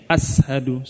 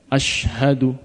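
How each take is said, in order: First: The middle consonant is an s sound. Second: The middle consonant is a sh sound. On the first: The speaker calls it wrong. "jangan sampai kayak sin ya. Asyhadu salah" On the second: The speaker calls it right. "Pakai shin"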